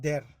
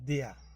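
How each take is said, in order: First: It is said the way Bangladeshi learners say it. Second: It is said with the original German pronunciation. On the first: The speaker calls it wrong. "আমরা বাংলাদেশিরা যারা বাংলাদেশে থাকে তারা উচ্চারণ করবে হইলো এটা দের" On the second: The speaker calls it right. "এটা অরিজিনাল উচ্চারণ হইলো দেয়া"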